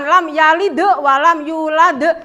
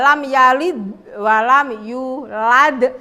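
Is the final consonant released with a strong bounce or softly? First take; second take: strong bounce; softly. First: The final consonants are released with a strong bounce. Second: The final consonants are released softly without bouncing. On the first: The speaker calls it wrong. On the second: The speaker calls it right. "enggak mendal"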